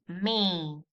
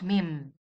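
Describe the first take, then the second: First: It ends on a nasal vowel, lips staying open. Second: It ends with the lips closing on an m. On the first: The speaker calls it right. "Don't forget not to close your lips in the end of this word" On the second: The speaker calls it wrong. "not mim"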